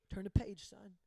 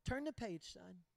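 First: Calm firm father. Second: Softer, steady fatherly command; calm firm father. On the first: Father repeats calmly. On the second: Dad answering his upset son, a soft, steady firm voice. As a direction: say it quiet and sure, like dad. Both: Retold or imitated.

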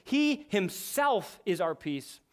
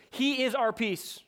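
First: Slow, with the stress on "he"; emphatic. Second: Said in the usual way. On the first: Shown as a demonstration. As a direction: say it slowly and weight "he himself". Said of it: "as the text says in an emphatic way". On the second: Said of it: "Paul could have just written these words".

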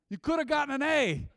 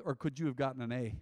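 First: High, loud, laughing answer with could punched; emphatic answer. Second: Said in the usual way. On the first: Acted. Preacher answering his own question with a laughing, emphatic could.

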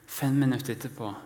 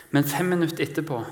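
First: Said in the usual way. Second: Fem minutter etterpå pushed out higher and louder, fast; emphatic. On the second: Acted. Preacher to congregation, stressing fem minutter etterpå with urgency.

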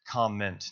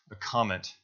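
First: Comment said clearly as COM-ment, ending in a t. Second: A comment, stressed on COM, falling, with a clear final t. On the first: Preacher correcting a mishearing, says comment carefully. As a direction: say comment with the t, not comet. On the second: Preacher repeats the word for the congregation, careful. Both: Shown as a demonstration. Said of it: "not a comet".

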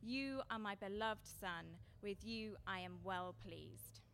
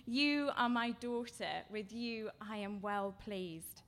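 First: Slow, deliberate words of blessing; unhurried declaration of a father's love; slow voice from heaven. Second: Slow, deliberate blessing for a daughter; unhurried declaration of a father's love; slow voice from heaven. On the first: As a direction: lay each word down slowly as God's voice. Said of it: "and a voice came from heaven". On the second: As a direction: let each word land slowly as God's voice. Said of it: "but a voice from heaven says". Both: Retold or imitated.

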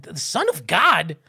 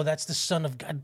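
First: Slow, incredulous repeat as a question; imitated amazed echo. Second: Said in the usual way. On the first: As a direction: echo it back in drawn-out disbelief. Children echo in disbelief.

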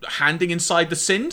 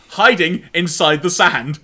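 First: Handing inside the sind, tripped words; tongue slip. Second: Hiding inside the sand, slow and clear; careful correction. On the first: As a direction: say sind for sand, garbled. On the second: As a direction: stress each word of Hiding inside the sand. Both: Real, not acted. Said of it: "That's not what I wanted to say".

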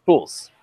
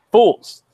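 First: Said in the usual way. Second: FOOLS said higher and louder; "Fools." as a booming echo; louder, emphatic. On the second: Shown as a demonstration. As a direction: punch out "Fools." with mock outrage.

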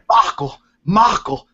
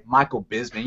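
First: "Michael, Michael" each called out with weight, falling; emphatic name call. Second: Said in the usual way. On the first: Shown as a demonstration. Host shows how to say the name, with big emphasis. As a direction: belt out "Michael" twice with dramatic emphasis. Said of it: "you gotta put some emphasis in it". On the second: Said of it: "one doesn't simply say Michael Bisping".

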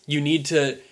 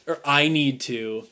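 First: Said in the usual way. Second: "I" pushed as a self-correction after "You"; stress on I. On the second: Shown as a demonstration. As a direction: lean on "I" to correct yourself.

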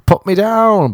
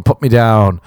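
First: Eager yes. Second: Said in the usual way. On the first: Retold or imitated. Eager to be on the show.

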